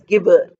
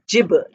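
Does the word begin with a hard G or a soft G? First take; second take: hard G; soft G. First: It begins with a hard G as in goat. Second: It begins with a soft G, not as in goat. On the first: The speaker calls it wrong. "here it is not pronounced as gibber" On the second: The speaker calls it right. "it is pronounced as gibber"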